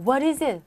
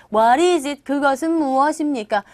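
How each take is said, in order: First: Said in the usual way. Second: Loud, over-formal demonstration of literal translation; stiff literal questioning. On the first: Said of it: "막 우는 사람한테". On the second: Shown as a demonstration. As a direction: question a crying person too formally, loudly. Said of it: "이렇게 하지 마시고요".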